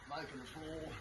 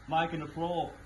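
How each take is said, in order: First: It is said quietly. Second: It is said loudly.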